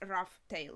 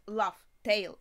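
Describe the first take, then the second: First: The name begins with an R sound. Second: The name begins with an L sound. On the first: The speaker calls it wrong. "we thought it started from R" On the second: The speaker calls it right. "it actually starts from L"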